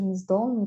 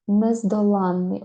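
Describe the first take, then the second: First: Нездоланий stressed on "до", short unstressed "ла"; stress off the suffix. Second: Нездоланний with a long, stressed "ла"; slow нездоланний, louder on "ла"; stress on the suffix. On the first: Teacher contrasting the single-н word, stress on "до" in нездоланий. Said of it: "якщо не падає". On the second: Teacher showing the double-н word, suffix stressed in нездоланний. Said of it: "якщо наголос падає на суфікс". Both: Shown as a demonstration.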